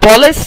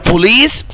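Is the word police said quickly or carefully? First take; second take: quickly; carefully. First: The word is said quickly and clipped. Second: The word is said slowly and fully. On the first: The speaker calls it wrong. "محدش ينطقها بسرعة كده police، لا غلط" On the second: The speaker calls it right. "هي police"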